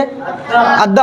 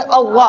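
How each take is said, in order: First: अद्दा with a light dental d and open "aa"; thin light d. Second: अव्वा as a heavy doubled emphatic consonant with rounded "aw"; thick heavy articulation. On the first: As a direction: say अद्दा gently, no rounding or heaviness. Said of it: "आराम से बोलेंगे". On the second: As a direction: fill the mouth on अव्वा, dark and rounded. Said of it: "मोटा करके पढ़ेंगे". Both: Shown as a demonstration.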